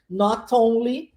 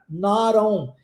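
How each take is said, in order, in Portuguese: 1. O t é um t claro, totalmente solto. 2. O t é um flap rápido, como um r. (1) "o inglês mais britânico, com o T com o som de T" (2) "T transformado em R, mais inglês americano"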